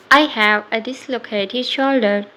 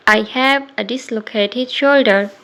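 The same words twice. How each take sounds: The two takes are said the same way.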